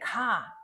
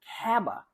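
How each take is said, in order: First: The final B sound is left off. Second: An extra vowel is added after the B. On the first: "if you're saying ka instead of cab" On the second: "if you're adding a vowel such as kaba"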